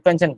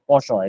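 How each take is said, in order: First: The word is said plainly, as English spelling suggests. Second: The word is said with a French-like pronunciation. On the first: The speaker calls it wrong. "এটা কিন্তু পেনচেন্ট না" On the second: The speaker calls it right. "এটা কিন্তু হচ্ছে পোষণ, এরকম উচ্চারণ। So মূলত এটা ফ্রেঞ্চ থেকে আসছে"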